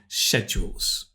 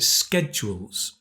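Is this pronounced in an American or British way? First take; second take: British; American. First: It is pronounced the British way. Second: It is pronounced the American way. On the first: "If you prefer British English, we would say schedules" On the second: "in America they pronounce it schedules"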